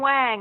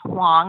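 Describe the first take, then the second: First: The name is said with an Americanized A vowel. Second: The name is said with a soft A vowel. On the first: The speaker calls it wrong. "People will say" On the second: The speaker calls it right. "It's a soft A sound"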